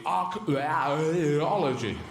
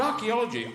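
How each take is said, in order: First: Very slow, mangled vowels in "archaeology"; "archaeology" vowels smeared. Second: Said in the usual way. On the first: Shown as a demonstration. Mocking vowel-heavy words, "archaeology" hugely drawn out. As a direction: wallow through the middle vowels of "archaeology". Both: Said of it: "they're all changes in vowels".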